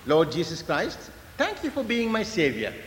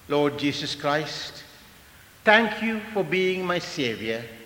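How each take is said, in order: First: It is said at a normal pace. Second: It is said slowly.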